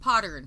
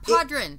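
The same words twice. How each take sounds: First: The R sound comes after the vowel: podern. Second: The R sound comes before the vowel: podren. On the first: The speaker calls it right. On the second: The speaker calls it wrong. "Not podren"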